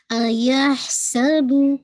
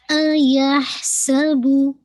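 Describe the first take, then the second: First: अयहसबु with a bounced ब at the end; qalqala on the baa. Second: अयहसबु slow, with rounded lips on बु; rounded damma with qalqala. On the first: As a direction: recite अयहसबु slowly, echoing the qalqala. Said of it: "आपने कलकला करना है". (क़लक़ला के साथ अयहसबु) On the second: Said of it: "बा की दम्मा भी गोल है". (गोल होंठों से बु) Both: Shown as a demonstration.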